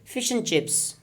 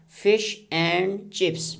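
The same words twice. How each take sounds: First: The word "and" is reduced to "un". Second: The word "and" is said in full. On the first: "How can we turn it into a weak form in connected speech?" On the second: "here is a strong form"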